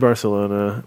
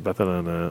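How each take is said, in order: First: The c is said like an s. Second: The c is said like a th.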